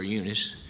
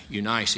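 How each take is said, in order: First: Eunice with the vowels changed; alternative pronunciation. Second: Eunice said one regional way; one pronunciation. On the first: Preacher comparing name pronunciations, alternative way of saying Eunice. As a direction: say Eunice the second of two ways. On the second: Preacher comparing name pronunciations, first way of saying Eunice. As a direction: say Eunice the first of two ways. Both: Shown as a demonstration. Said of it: "It's kinda like".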